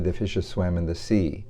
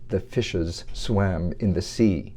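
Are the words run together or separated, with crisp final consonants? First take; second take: run together; separated. First: Words run together and final consonants are dropped. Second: Words are separated and final consonants are crisp. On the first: The speaker calls it wrong. "He would never say" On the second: The speaker calls it right. "he would separate each the words and never drop the final consonant"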